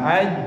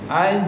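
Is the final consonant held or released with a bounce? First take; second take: held; bounced. First: The final consonant is held without release. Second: The final consonant is released with a bounce. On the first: The speaker calls it wrong. "bukan ditahan" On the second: The speaker calls it right. "dipakai qalqalah"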